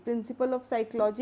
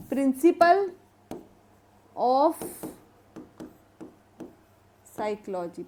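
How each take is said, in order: First: Said in the usual way. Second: Principle, of, Psychology with long pauses between; word-by-word dictation. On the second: Shown as a demonstration. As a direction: leave time to write after Principle and after of. Teacher dictates book title in pieces.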